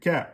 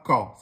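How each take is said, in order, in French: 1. La syllabe ka se prononce fine et légère. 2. La syllabe ka se prononce lourde et emphatique. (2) "c'est pas ka"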